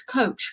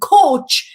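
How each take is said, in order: First: "coach" with the standard long o glide, koh-ch. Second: "coach" with a Geordie flat, pure long o, kohch with no glide. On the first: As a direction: say "coach" the way non-Geordies do, gliding o. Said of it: "That's coach for those that don't have a Geordie accent". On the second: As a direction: say "coach" in a Geordie accent, slowly. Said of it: "and coach in my accent". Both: Shown as a demonstration.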